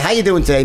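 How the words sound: The greeting sounds flat and indifferent. The speaker does not care about the answer. The speaker calls it wrong. "I don't give a shit how you doing today. It's a perfunctory greeting"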